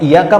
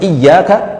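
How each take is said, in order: First: The y sound is short and single. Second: The y sound is held long and doubled. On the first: The sun. The speaker calls it wrong. "tapi iyyaka matahari jadinya" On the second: Only to you. The speaker calls it right. "Harusnya iyyaka"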